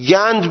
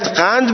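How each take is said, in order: First: It starts with a hard 'g' sound. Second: It starts with a deep back 'q' sound. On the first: "یه ترک به شما بگه گند بیار" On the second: "خب باید قند ببری دیگه"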